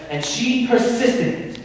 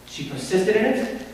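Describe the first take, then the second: First: PERSISTED pitched high and driven home; emphatic accusation. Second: Restrained echo on "persisted"; subdued repeat. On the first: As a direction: stress "persisted" with a high, forceful lift. Lawyer repeats point for emphasis. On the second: Lawyer repeats point, softer. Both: Acted.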